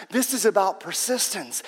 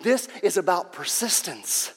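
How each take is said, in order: Both takes have the same delivery.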